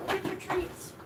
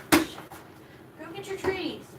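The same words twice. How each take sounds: First: Higher, softer coaxing to the dog; high pet voice. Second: High and very slow, stretching every word; drawn-out pet voice. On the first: Owner urging her dog to the treats, high soft coax. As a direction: sweet-talk the dog toward its treats. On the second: Owner coaxing her dog again, high and very slow. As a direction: draw the words out long to coax the pup. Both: Real, not acted.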